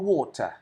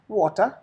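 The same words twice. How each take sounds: First: It is said in a British accent. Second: It is said in an Indian accent. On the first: "as the British do" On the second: "Just an Indian way of saying is water is enough"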